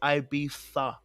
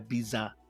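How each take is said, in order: First: The word is pronounced the Spanish way. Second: The word is pronounced the American way. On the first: The speaker calls it right. "It's Ibiza" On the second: The speaker calls it wrong. "It's not Ibiza"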